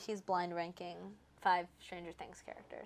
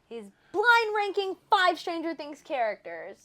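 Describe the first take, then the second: First: It is said flatly, with little emotion. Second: It is said with much more emotion.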